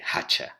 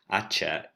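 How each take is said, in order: First: It starts with a breathy h, Andalusian style. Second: It starts with a silent h, Castilian style.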